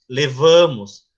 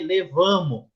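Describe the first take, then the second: First: The final S is clearly pronounced. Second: The final S is dropped. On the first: This is formal, educated speech. The speaker calls it right. "Não omita S e R. ... fale" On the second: This is casual everyday speech. The speaker calls it wrong. "a linguagem coloquial do dia a dia ... Não pode"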